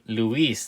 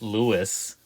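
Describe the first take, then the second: First: The name is said with a Spanish pronunciation. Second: The name is said with an English pronunciation. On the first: The speaker calls it right. "That is obviously Luis" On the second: The speaker calls it wrong. "not Lewis"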